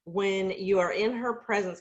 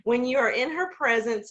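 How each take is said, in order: First: Choking up. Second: Steadying herself to finish the tribute; sincere restart. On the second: To the Zoom group, praising her friend, a tearful push. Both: Real, not acted. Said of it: "gosh, I'm gonna start crying".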